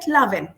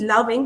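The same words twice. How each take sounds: First: The word ends without any g sound. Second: The word ends with a clear g sound. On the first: "not pronouncing G uh, if it is a last letter" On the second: "they are not uh, pronoun- pronouncing it as loving"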